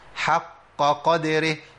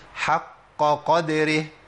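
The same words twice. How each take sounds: Both takes have the same delivery.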